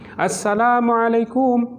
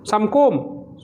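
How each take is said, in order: First: The greeting is said in full, every syllable. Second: The greeting is clipped to two short syllables. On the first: The speaker calls it right. "kita lazimkan apa yang ada pada makhraj-makhraj, tajwid-tajwid" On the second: The speaker calls it wrong. "dipendek dan tidak memaknakan apa yang ingin kita sampaikan"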